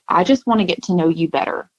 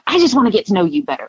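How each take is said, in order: First: It is said slowly and quietly. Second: It is said fast and loudly.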